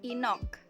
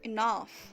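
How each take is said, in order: First: The word ends with an 'ok' sound. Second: The word ends with an 'af' sound. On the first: The speaker calls it wrong. "atau inok" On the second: The speaker calls it right. "tapi dibaca enough"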